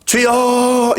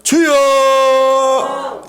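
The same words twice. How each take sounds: First: A short demo cry of Lord. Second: Very high, drawn-out cry of 주여; a fervent, drawn-out Lord; long cry. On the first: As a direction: call out to God. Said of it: "어떻게 부르짖었을까요?". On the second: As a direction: stretch 주여 into a long wailing call. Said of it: "주여, 시작". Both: Shown as a demonstration.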